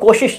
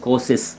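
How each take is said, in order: First: The word is said with 'sh' sounds. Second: The word is said with plain 's' sounds. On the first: The speaker calls it right. "ये श अक्षर है" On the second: The speaker calls it wrong. "कुछ लोग इसको कोशिश कहते हैं"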